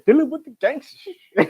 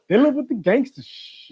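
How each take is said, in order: First: It is said with strong, lively feeling. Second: It is said plainly, without much feeling.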